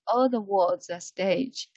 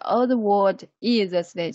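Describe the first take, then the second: First: The words are linked together smoothly. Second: The words are separated, each said apart. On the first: The speaker calls it right. "link together" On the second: The speaker calls it wrong. "you have not to separate all the word is a stage. No no no"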